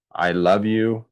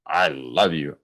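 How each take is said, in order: First: I love YOU, weight on you; I love you with you stressed. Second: I LOVE you, lower and falling on love; I love you with love stressed. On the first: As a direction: lean on the word you. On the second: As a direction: press down on the word love. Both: Shown as a demonstration. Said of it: "how we say it".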